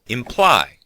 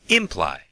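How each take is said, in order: First: The stress is on the second syllable. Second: The stress is on the first syllable. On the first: The speaker calls it right. "the stress is on the second syllable" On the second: The speaker calls it wrong. "put the stress on the first syllable and say imply, which sounds strange"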